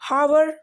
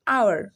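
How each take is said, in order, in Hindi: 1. शब्द की शुरुआत में H की साफ़ आवाज़ सुनाई देती है। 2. शब्द एक स्वर से शुरू होता है, इसमें H की आवाज़ नहीं है। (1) "हावर नहीं"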